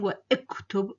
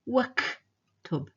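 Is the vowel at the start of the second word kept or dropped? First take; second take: kept; dropped. First: A separate vowel is heard after wa. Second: Wa runs straight into the k sound. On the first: The speaker calls it wrong. "I'm not saying wa iktub" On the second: The speaker calls it right. "I'm saying waktub"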